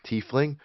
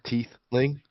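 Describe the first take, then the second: First: The middle of the word has an f sound. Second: The middle of the word has a th sound. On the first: "finds it hard to say" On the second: "she pronounces it like teeth, t e like the teeth in your mouth"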